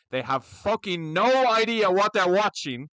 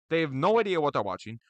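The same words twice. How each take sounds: First: "no idea" pushed out loud and slow; ranting at fans who know nothing, loud and slow; louder, slow rant. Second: Said in the usual way. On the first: Real, not acted.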